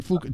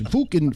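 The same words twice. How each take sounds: First: Fukin with a rounded oo vowel, trailing off softly; British Fukin, softer. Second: Fukin with a rounded oo vowel and a dropped g; British Fukin. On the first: Host repeating the word to a rock star, Fukin said softly and British. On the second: Coaching a rock star on air, Fukin said the British way. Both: Shown as a demonstration. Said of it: "That's it, British".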